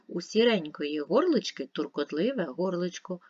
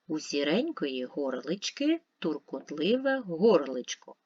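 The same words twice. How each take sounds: First: It is read at a faster pace. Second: It is read slowly. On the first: "Швидше" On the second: "Спочатку читаємо повільно"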